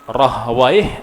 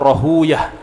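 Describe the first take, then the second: First: The name ends with the sound 'waih'. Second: The name ends with the sound 'uyah'. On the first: This reading is avoided by hadith scholars. "dibaca dua" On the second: This is the reading hadith scholars prefer. "Maka selalu mengatakan Ishaq ibnu Rahuyah"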